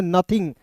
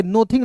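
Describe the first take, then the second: First: नथिंग starting with a short "nuh"; correct pronunciation. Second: नथिंग misread with "no" as first syllable; wrong pronunciation. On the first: Teacher giving learners the reading of NOTHING, correct pronunciation. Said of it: "इसे पढ़ेंगे नथिंग". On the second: Teacher warning learners off a misreading, wrong pronunciation. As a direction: say नथिंग as "no-thing". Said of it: "नथिंग नहीं पढ़ेंगे". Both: Shown as a demonstration.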